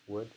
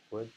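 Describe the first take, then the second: No difference in how they are said.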